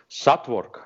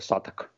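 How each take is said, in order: First: The word is said in full, with a w. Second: The word is shortened, with no w. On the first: This is how Russian speakers say it. The speaker calls it wrong. "все русские произносят его Сатворк" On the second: This is how the name is really said. The speaker calls it right. "а на самом деле это Саток"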